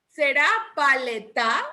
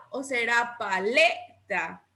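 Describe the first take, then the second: First: Paleta with the stress wrongly on the last syllable, pale-TÁ; acento equivocado en TA. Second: Paleta with a long, stressed middle syllable, pa-LÉ-ta; acento en LE. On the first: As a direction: question it as pale-TÁ, final syllable rising. (paleta con la fuerza en la última sílaba, pale-TÁ) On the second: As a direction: stretch and punch LE, let TA drop. (paleta con la fuerza en LE, pa-LÉ-ta) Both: Shown as a demonstration. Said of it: "¿Y dónde lleva la mayor fuerza de voz".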